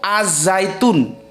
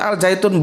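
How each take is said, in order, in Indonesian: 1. Bunyi l menyatu dengan bunyi z yang mengikutinya. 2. Artikelnya tetap punya bunyi l yang jelas. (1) "Yang betul itu az-zaitun" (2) "Jangan ngomong al zaitun"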